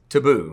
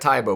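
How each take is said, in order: First: The name is said like 'Taboo'. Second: The name is said like 'Tybo'. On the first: This is how the name is actually said. The speaker calls it right. "but it is Taboo" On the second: This is how the spelling suggests it is read. The speaker calls it wrong. "looks like Tybo"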